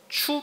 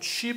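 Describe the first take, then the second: First: The syllable ends with a plain u vowel. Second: The syllable ends with a wi glide. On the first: "추 발음도 납니다" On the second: "취 발음도 나고"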